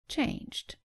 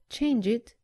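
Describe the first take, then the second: First: The ending adds no extra syllable. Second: The ending is an extra 'id' syllable. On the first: The speaker calls it right. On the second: The speaker calls it wrong. "Don't say"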